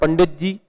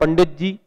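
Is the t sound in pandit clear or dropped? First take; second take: dropped; dropped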